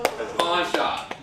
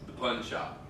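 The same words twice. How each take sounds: First: "pawn shop" said very slowly with an open pawn vowel; correcting to pawn shop. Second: "pun shop" with a short pun vowel, quiet and low; the wrong version, "pun shop"; saying pun shop. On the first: A comedian explains the pun, saying "pawn shop" slowly. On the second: A comedian gives the pun version "pun shop". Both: Shown as a demonstration.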